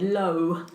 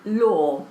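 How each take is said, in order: First: The vowel is a rounded 'oh' sound. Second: The vowel is an open 'aw' sound. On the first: A French accent changed the vowel. "with her French accent she said low" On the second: This is the word that was intended. "they knew she meant law"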